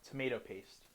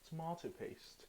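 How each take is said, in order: First: It is said in an American accent. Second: It is said in a British accent.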